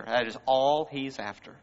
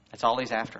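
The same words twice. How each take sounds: First: Insisting on "all"; stress on all. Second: Said in the usual way. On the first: Real, not acted. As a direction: land hard on "all".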